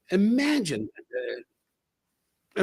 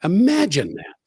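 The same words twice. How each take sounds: First: Imagine that stretched very slowly and softly; a slow, quiet wondering aside; drawn-out marvel. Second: Said in the usual way. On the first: Shown as a demonstration. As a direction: savour every syllable, slow and hushed. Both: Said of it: "Imagine that. (repeated three ways)".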